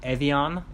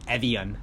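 First: It is pronounced the French way. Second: It is pronounced the American way. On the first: "if it in Japanese or in France" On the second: "I think Americans would do like"

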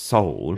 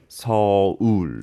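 First: The word is said as one syllable. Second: The word is said as two syllables. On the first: "In English, it's just Seoul" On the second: "it's not one syllable in Korean"

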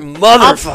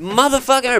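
First: The word ends with an open 'a' sound. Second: The word ends with an 'er' sound. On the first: "With an ER or an A?" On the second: "With an ER or an A?"

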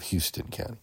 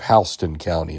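First: Houston is said the usual non-local way. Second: Houston is said the local Georgia way. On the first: This is how the name is said elsewhere. "instead of Houston County" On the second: This is how the county name is said locally. "we have Houston County"

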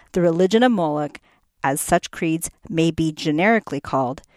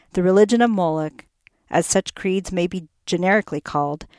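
The two takes are said the same way.

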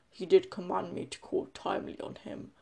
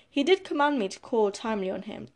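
First: It is said in a put-on deep voice. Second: It is said in a normal voice.

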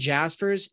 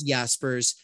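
First: The name is said with an English pronunciation. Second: The name is said in its native, non-English form. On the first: "which is like people would say that would be an Anglification" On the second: "even if it was Jaspers"

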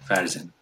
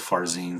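First: The name is said without a clear 'een' ending. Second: The name is said with a clear 'een' ending. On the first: This is how family members say the name in their dialect. "that een isn't even there in how I grew up" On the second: This is the standardized, more purely Persian form. "more purely Persian pronunciation"

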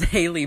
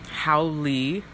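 First: The first syllable sounds like 'hay'. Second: The first syllable sounds like 'how'. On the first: The speaker calls it wrong. "this is actually not called Haley Punch" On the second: The speaker calls it right. "Correct pronunciation"

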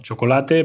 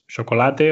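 First: The ch sound is a full, sharp ch. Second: The ch sound is softened toward sh. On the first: "Como chocolate" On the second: "Es el debilitamiento del sonido CH"

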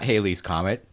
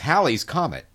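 First: The first word sounds like the name Haley. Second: The first word sounds different from Haley. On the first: The speaker calls it wrong. "It's not Halley's Comet" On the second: The speaker calls it right. "It's Halley's Comet"

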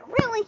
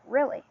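First: It sounds angry and frustrated. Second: It sounds calmly surprised, not angry.

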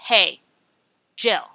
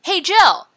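First: It is said flatly with a stop. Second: It is said with lively excitement.

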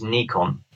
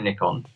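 First: The first syllable sounds like 'knee'. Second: The first syllable sounds like 'nick'. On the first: This is the original, correct way to say it. The speaker calls it right. "The actual correct pronunciation is Nikon" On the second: This is how English people say it. The speaker calls it wrong. "so English people say Nikon"

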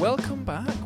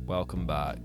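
First: It is said with normal lively intonation. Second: It is said in a flat monotone.

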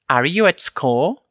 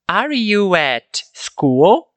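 First: It is said quickly with the words run together. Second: It is said slowly with clear separate words. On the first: "Naturalmente ficaria assim, ó" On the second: "Falei um pouco mais pausadamente para entendermos"

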